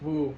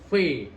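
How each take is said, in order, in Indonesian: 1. Diucapkan tanpa membuka rahang, seperti 'fu'. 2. Diucapkan dengan rahang terbuka, seperti 've'. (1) "Kalau kita nggak dibuka, ... Jadi fu bukan V" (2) "Jadi ini rahangnya ini agak dibuka"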